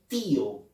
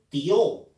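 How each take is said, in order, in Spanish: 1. El sonido i es tónico. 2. El sonido i no es tónico. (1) "Todos decimos tío. La letra o la vocal I la pronunciamos con mayor énfasis" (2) "Nadie dice tío"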